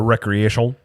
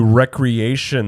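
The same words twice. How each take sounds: First: The R is rolled, Spanish style. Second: The R is said plainly, English style.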